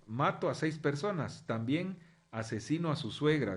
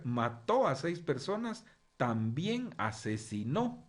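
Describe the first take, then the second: First: "mato" said MA-to, "asesino" said a-se-SI-no; no accent marks. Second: "mató" said ma-TÓ and "asesinó" said a-se-si-NÓ, slow and stressed; accent on the last syllable. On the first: Teacher reading the headline as misprinted, "mato" and "asesino" unaccented. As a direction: read "mato" and "asesino" as written, stress on the second-to-last syllable. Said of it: "Aquí querían poner".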